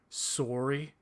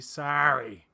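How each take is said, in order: First: It is said in a Canadian accent. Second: It is said in an American accent. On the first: The speaker calls it wrong. "especially Canadians, because they'll be like" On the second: The speaker calls it right. "that's not how you say it in America. You don't say sorry. You say sorry"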